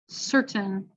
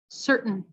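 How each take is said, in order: First: The T is fully released between vowels. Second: The T is a throat stop released nasally. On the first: It does not sound like the American accent. "I'll say it with a regular T" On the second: It sounds like the American accent. "and then with a glottal"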